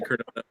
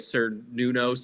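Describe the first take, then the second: First: The name begins with a hard K sound. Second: The name begins with an S sound. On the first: This is the intended pronunciation. The speaker calls it right. "They're trying to say" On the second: This is how it was mispronounced in the movie. The speaker calls it wrong. "it was not with the hard C, it was with the S"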